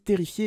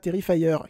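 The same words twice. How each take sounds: First: The word is pronounced the French way. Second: The word is pronounced the English way. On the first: "je dis Terrifier" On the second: "et pas Terrifier"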